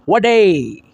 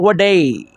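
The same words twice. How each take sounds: Both takes have the same delivery.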